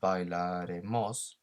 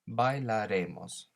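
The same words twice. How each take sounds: First: The stress falls on the final syllable 'mos'. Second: The stress falls on the syllable 're'. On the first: The speaker calls it wrong. "rather than the O" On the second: The speaker calls it right. "we need to accentuate the E"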